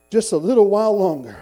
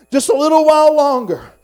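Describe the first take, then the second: First: Loud, emphatic declaration of hope; preacher's declaration. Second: High, very loud triumphant cry; full-force preacher's shout. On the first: Weary believer looking to his heavenly home, loud declaration. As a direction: proclaim it firmly, voice falling at the end. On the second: Weary believer looking to his heavenly home, triumphant shout. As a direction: belt it out to the whole church. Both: Acted.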